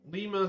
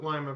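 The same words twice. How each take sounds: First: The first syllable sounds like 'lee'. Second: The first syllable sounds like 'lie'. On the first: The speaker calls it right. "It's Lima" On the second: The speaker calls it wrong. "Like Lima Bean?"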